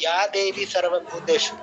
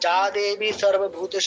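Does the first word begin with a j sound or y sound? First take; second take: y sound; j sound. First: The first word begins with a y sound. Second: The first word begins with a j sound. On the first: The speaker calls it right. "আমরা বলবো" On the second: The speaker calls it wrong. "বলবো না"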